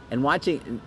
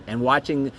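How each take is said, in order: Both takes have the same delivery.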